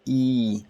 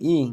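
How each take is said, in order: First: The vowel is held longer. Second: The vowel is short. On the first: "Little bit of extra pro prolongation" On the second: "instead of reading E"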